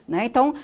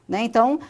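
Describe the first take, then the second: The two takes are said the same way.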